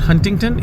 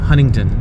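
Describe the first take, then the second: First: The first t is clearly pronounced. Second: The first t is silent. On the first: The speaker calls it wrong. "So it's not हंटिंगटन" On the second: The speaker calls it right. "It's हनिंगटन। The first टी is silent."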